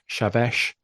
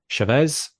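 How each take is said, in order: First: The name ends with an 'sh' sound. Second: The name ends with an 's' sound. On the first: The speaker calls it right. "It's probably more like Chavesh" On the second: The speaker calls it wrong. "apologies for the pronunciation there"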